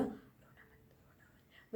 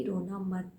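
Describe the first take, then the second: First: Very soft, slow whisper; whispered quote. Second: Said in the usual way. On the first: Retold or imitated. Star mouthing from the car not to cry, whispered. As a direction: hush it like mouthing through glass. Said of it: "SK ने मुझे बोला". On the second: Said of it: "SK बोल रही है कि".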